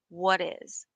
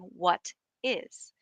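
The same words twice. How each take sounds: First: The two words are linked and reduced together. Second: The two words are said carefully and separately. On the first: "I'm saying it like a native" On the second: "you'll know that I'm saying what is"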